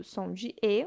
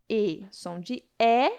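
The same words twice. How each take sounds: First: "e" said as a closed vowel with lips narrow, like in "você"; closed ê sound. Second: "é" said as an open, slow, drawn-out vowel, like in "jacaré"; open é sound. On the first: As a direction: keep "e" tight and closed. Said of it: "um som mais fechado". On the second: Teacher showing students the open sound, slow and clear. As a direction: slowly open the mouth wide on "é". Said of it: "aberto, acento agudo". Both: Shown as a demonstration.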